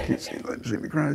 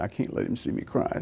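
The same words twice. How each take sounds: First: Higher, softer, tearful imitation; imitating weeping. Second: Whispered, holding back the crying; retold tearful whisper. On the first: Nurse hiding her tears from the patient, imitated tearful voice. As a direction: let the voice go up and thin, half crying. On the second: Nurse hiding her tears from the patient, mock tearful whisper. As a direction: keep it breathless, as if hiding tears. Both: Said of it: "she started weeping and sobbing".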